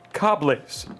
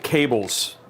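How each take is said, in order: First: It is said in a mock French-Canadian accent. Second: It is said in a plain English accent.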